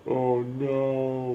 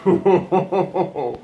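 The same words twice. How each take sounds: First: Said in the usual way. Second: "Oh, no." laughed out, louder and higher; laughing dismay. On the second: Real, not acted. Friend watching election results, laughing dismay. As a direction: laugh through the words in dismay.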